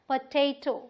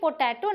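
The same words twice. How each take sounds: First: The stress is on the second syllable. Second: The stress is not on the second syllable. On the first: The speaker calls it right. "Stress दे रहे हैं वो यहां दे रहे हैं टे पे" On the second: The speaker calls it wrong. "ये potato नहीं है भाई"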